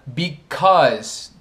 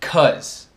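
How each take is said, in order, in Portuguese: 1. A palavra é pronunciada completa, com as duas sílabas. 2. A primeira sílaba é omitida, restando 'cause'. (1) "Because tornou-se cause" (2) "tornou-se cause"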